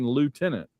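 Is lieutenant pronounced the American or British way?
American. It is pronounced the American way, lootenant.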